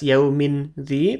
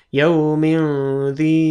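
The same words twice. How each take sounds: First: The n is pronounced clearly and distinctly. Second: The n is hidden with a nasal hum. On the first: The speaker calls it wrong. "bukan jelas, tidak dibaca jelas" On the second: The speaker calls it right. "tapi yaumin zi seperti itu"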